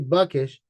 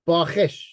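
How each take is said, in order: First: The middle consonant is a plain hard k. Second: The middle consonant is a raspy throat kh. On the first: The speaker calls it wrong. "It's not supposed to be Buckish" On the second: The speaker calls it right. "There should be another H after the K here to make it Bakhish"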